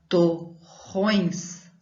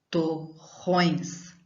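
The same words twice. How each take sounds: The two takes are said the same way.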